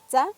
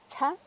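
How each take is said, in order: First: The ts sound has no puff of air. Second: The ts sound has a strong puff of air. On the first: "T S normal" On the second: "la T S aspirada es tsa"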